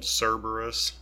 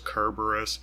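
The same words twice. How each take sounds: First: The name is pronounced the familiar English way. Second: The name is pronounced the original Greek way. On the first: This is the form the speaker is used to. "I grew up with it being called Cerberus" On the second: This is the original form of the name. "I think perhaps the original Greek was Cerberus"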